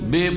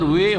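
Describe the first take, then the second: First: The syllable begins with a b sound. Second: The syllable begins with a w sound. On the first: The speaker calls it wrong. "আম জনগণ কি পড়ে? বে পড়ে" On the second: The speaker calls it right. "ওয়াজের ওয়ে হয়"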